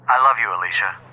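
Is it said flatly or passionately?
flatly. It is said flatly, without passion.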